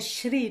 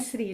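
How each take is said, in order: First: The word begins with an 'sh' sound. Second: The word begins with a plain 's' sound. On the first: The speaker calls it right. "É Shri" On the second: The speaker calls it wrong. "não é Sri"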